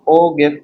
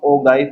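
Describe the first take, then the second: First: The second syllable rhymes with 'give'. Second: The second syllable has the vowel of 'guy'.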